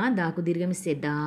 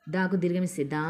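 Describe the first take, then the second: No difference in how they are said.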